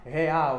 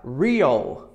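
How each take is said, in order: First: "real" as heh-AU, r like an h; Portuguese pronunciation. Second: "real" as REE-ul, with English r; slow, lower "real", stressed on REE; English pronunciation. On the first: Teacher showing what not to say in English, Portuguese pronunciation. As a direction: say "real" the Brazilian way, ending in a w. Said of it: "você não vai falar real". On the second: Teacher modelling what you will say, English pronunciation. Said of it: "você vai falar real". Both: Shown as a demonstration.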